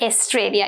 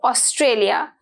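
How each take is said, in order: First: The first vowel is not an 'o' sound. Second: The first vowel is an 'o' sound. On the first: The speaker calls it wrong. "not Australia" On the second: The speaker calls it right. "it's o"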